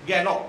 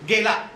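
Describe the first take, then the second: First: The word ends in an open 'o' vowel. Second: The word ends in an 'a' vowel. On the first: This is the Chitpavani form. "त्याच्यात ओकारांत होतात" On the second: This is the standard Marathi form. "मराठीतले आकारांत शब्द"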